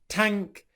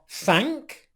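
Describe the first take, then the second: First: It begins with a t sound. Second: It begins with a th sound. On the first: The speaker calls it wrong. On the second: The speaker calls it right.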